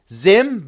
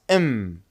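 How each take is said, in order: First: The word is said with its full sounds. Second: The word is said short without its first sound.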